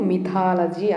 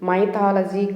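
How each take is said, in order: First: The first syllable has a short 'i' sound. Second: The first syllable rhymes with 'eye'. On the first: The speaker calls it right. "మిథాలజీ అని పలకాలి" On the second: The speaker calls it wrong. "చాలామంది ఎంవై ఉంది కాబట్టి మైథాలజీ అంటున్నారు. మైథాలజీ కాదు"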